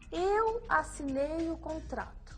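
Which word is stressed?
eu. The word eu is emphasized. "Faça um gesto para reforçar a palavra eu"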